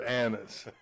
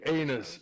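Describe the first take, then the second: First: It sounds like the name 'Annis'. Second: It sounds like the word 'anus'. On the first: The speaker calls it right. "instead of anus" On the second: The speaker calls it wrong. "why did you say anus"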